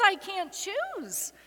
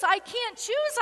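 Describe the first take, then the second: First: Slow, falling, spent repetition; I stressed, choose falling away slowly; slow broken plea. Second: High, climbing cry of refusal; rising desperate plea. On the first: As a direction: let I can't choose sink slowly. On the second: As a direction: lift choose up in anguish. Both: A narrator's reading. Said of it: "And she pleads".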